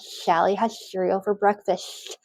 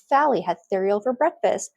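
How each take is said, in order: First: The s sounds are lisped with air escaping sideways. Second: The s sounds are lisped with the tongue between teeth. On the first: "it might sound like there's air escaping on the sides" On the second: "a frontal lisp on our S and Z, where the tongue comes forward interdentally"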